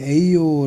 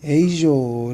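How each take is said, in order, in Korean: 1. 이중 L은 Y 소리처럼 납니다. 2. 이중 L은 J 소리처럼 납니다. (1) "에이요 라고 해도 됩니다" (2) "요와 조의 중간 발음 ... 에이조 라고 해도 되고"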